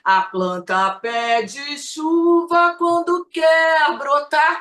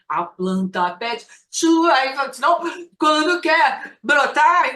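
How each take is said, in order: First: The phrase runs on without a break. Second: A pause breaks the phrase after chuva. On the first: The sentence keeps its meaning. The speaker calls it right. "É uma frase gigante" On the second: The sentence loses its meaning. The speaker calls it wrong. "não rola, que aí perde o sentido"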